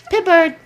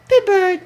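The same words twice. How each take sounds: First: High, loud sing-song; teaching a parrot. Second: High, loud sing-song again; teaching a parrot. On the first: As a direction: call the bird's name up high. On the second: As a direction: repeat the name, higher still. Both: Shown as a demonstration. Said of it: "teaching the bird its name".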